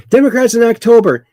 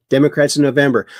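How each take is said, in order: First: Higher, fast, loud sarcastic setup; mocking announcement. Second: Said in the usual way. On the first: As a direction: announce it like a punchline, high and quick. Mocking Democrats before and after.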